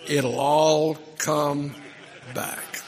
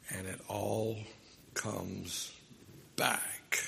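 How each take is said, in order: First: Slow and loud, stretching "come" out, then drop on "back"; drawn-out punchline. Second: Softer and lower, "comes" sinking, "back" falling; soft, slow echo. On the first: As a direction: land the punchline, let "come" ring out long. Punchline of the lawnmower joke. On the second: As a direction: bring the point home quietly. Sermon's point echoing the punchline. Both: Acted.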